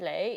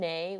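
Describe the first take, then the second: First: The word begins with an L sound. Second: The word begins with an N sound. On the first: This is how Hong Kong Cantonese says it now. "they'll say lei" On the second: This is the older Cantonese the parents brought over. "they often switched the N to an L"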